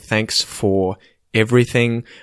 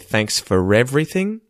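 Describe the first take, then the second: First: No R sound links for and everything. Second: An R sound links for and everything. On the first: "Instead of me saying" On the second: "I say"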